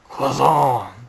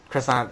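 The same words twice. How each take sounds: First: It is said with a French accent. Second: It is said with an exaggerated English pronunciation. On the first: "just like just like that" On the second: "not like that. I'm a, I'm exaggerating, but definitely not how she said it"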